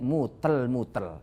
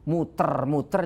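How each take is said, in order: First: Each word ends with an l sound. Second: Each word ends with an r sound. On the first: A small child who cannot say r says it this way. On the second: This is the intended word.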